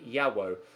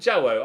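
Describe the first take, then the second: First: The name starts with a Y sound. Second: The name starts with a hard J sound. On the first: The speaker calls it right. "without a hard J with kind of a Y sound. So it's actually Osman Yawo" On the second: The speaker calls it wrong. "I've been calling him Jawo"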